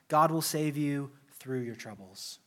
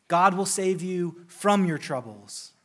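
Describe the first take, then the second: First: "through" set apart after a brief hold; measured line, leaning gently on "through"; stress on through. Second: Slow, deliberate, with "from" punched louder; stress on from. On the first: Preacher giving the professor's alternative, "through" stressed. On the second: Preacher quoting his professor to the congregation, "from" stressed. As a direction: set "from" apart and hit it firmly. Contrasts from with through. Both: Retold or imitated.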